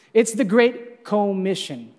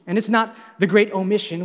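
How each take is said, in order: First: "Commission" with the first syllable "co" slowed and leaned on; slow, hit the "co" in "Commission"; stress on co. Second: Said in the usual way. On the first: Shown as a demonstration. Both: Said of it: "emphasis on co".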